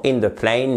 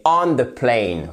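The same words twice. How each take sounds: First: Said in the usual way. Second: "on" drawn out slowly, then a falling end; slow, deliberate teaching emphasis on "on"; stress on "on". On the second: Shown as a demonstration. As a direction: stretch "on" to mark it as the correct word. Correct preposition shown against wrong one.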